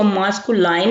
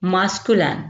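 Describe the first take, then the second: First: मास्कुलाइन with a long "line" ending; the wrong reading मास्कुलाइन, ending in an "ai" glide; mispronounced masculine. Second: मास्कुलिन with a short, unstressed "lin" ending; correct masculine pronunciation. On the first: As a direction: say मास्कुलाइन, last syllable rhyming with "fine". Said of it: "मास्कुलाइन नहीं पढ़ेंगे". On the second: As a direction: say मास्कुलिन, no "line" sound at the end. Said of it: "इसको मास्कुलाइन नहीं पढ़ेंगे". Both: Shown as a demonstration.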